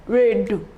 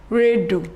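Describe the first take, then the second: No difference in how they are said.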